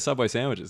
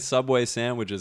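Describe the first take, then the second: First: It is said in a relaxed, casual way. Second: It is said in a formal, advert-like way. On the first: It is a natural, unpaid mention. "a relatable talking to your mate voice" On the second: Someone paid to promote it. "it's just kind of said as like the full thing"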